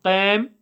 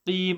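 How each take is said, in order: First: "qam" with an open vowel instead of long ee; "qam" in place of a long "qeem"; wrong vowel. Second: "Qim" with a long, narrow ee; correct long vowel. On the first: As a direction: show the mistake "qam", vowel slack and open. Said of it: "So it's not". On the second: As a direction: say "Qim" as "qeem", lips spread. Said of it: "So it's not qam". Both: Shown as a demonstration.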